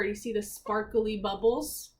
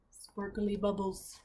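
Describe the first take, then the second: First: Said in the usual way. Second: Soft, slow, hushed wonder. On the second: Acted. Reader marvelling quietly at the bubbles, soft and slow. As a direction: breathe the words out in awe. Reader savours the magic picture.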